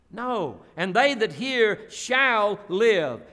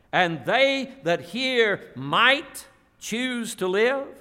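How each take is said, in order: First: Slow, stress on "shall live"; corrected quote. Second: Said in the usual way. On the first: Shown as a demonstration. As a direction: firmly set it right.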